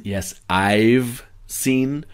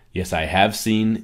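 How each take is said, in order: First: "I've" said as one short syllable, slow and clear; contracted I've. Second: Said in the usual way. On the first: Shown as a demonstration. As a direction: model "I've" slowly for learners to copy. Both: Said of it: "training that pronunciation of "I have" to "I've".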